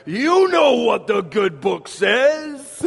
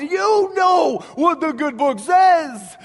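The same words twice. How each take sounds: First: Light Yiddish-tinged Tevye voice, slow; a hint of Tevye's accent, drawn out. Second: Loud, high, slow mock cry to heaven; hamming up Tevye calling out to God. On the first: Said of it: "I almost hit the accent". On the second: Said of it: "in his prayer to God, he says".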